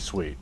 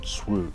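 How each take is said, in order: First: The vowel sounds like 'ee' in 'see'. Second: The vowel sounds like 'oo' in 'boot'. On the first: The speaker calls it right. "It's supposed to be sweet" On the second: The speaker calls it wrong. "AI gets the word swoot wrong"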